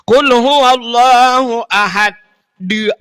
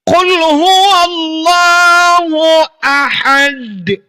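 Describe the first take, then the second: First: An extra vowel is added after the final consonant. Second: The final consonant ends cleanly without a vowel. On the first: The speaker calls it wrong. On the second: The speaker calls it right.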